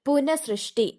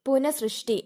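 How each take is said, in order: No difference in how they are said.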